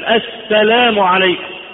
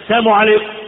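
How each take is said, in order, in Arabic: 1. صوت اللام في الكلمة الأولى واضح. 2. صوت اللام في الكلمة الأولى محذوف. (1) "مفروض انك انت تميز كلمة السلام" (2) "دي يعني السلام عليكم الموت عليكم"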